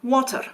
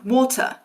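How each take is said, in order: First: A Scottish accent with a different final R. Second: A southern British accent with no final R. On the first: "That is a different R than in America, but it's still pronounced" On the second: "There's absolutely no trace of that R sound"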